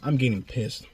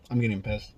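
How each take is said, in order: First: Said in the usual way. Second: Much lower and softer repeat; quieter muttered repeat. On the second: Real, not acted. Vlogger repeats it to himself, low and soft.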